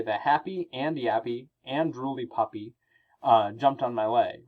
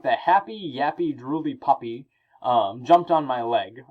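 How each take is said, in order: First: Said in the usual way. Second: "happy", "yappy", "drooly" each with a short pause after it; a small break after every adjective; pauses between adjectives. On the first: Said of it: "because I could say". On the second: Shown as a demonstration. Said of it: "The test you should know".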